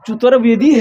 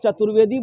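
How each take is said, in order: First: The name is said with a Bengali accent. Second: The name is said with a Hindi accent. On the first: This is how a Bengali man said it. "एक बंगाली भाई हमको बोल रहा था" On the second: This is how the speaker's own people say it. "ये हम लोग तो चतुर्वेदी बोलते हैं।"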